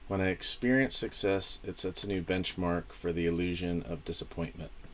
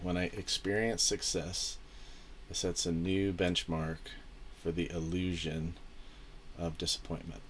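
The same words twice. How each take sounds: First: It is read at normal speed. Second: It is read slowly.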